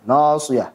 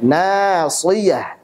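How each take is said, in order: First: The long vowel after s is thick. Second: The long vowel after s is thin. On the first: The speaker calls it wrong. "kalau ditebalkan ... salah" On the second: The speaker calls it right. "Yang benar adalah nasiyah"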